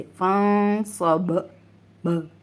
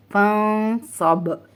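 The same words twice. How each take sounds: First: फंसब slowly, final b released with a bounce; qalqalah bounce. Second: फंसब slowly, long nasal n, ending on b; jazm stop. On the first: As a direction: recite फंसब, then echo the bouncing ब. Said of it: "ऐसे करके मखरज को हिलाकर". (फंसब, बा पर मखरज हिलाकर) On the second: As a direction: recite फंसब drawn out, stopping on vowelless b. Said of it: "बा साकिन है तो ऐसे ही रहेगा". (फंसब, बा साकिन पर रोकें) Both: Shown as a demonstration.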